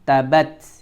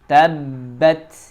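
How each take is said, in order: First: The b sound is short and not held. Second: The b sound is pressed and held. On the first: The speaker calls it wrong. "Jangan tabat" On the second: The speaker calls it right. "huruf itu ditekan kemudian ditahan sebanyak dua ketukan"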